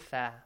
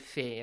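First: The letter name is said the Arabic way. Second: The letter name is said the Persian way. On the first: "in Arabic, we say fa" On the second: "Fe is in Persian, we say fe"

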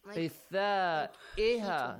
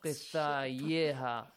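First: A glottal stop is pronounced in the middle. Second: A y glide is pronounced in the middle. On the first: The speaker calls it right. "So you pronounce it Hamza" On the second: The speaker calls it wrong.

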